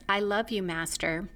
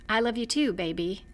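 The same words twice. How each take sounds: First: Flat, even robotic monotone. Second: Said in the usual way. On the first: Retold or imitated. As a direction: say it like an emotionless machine. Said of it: "in a very robotic voice says". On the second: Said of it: "the way he says that line".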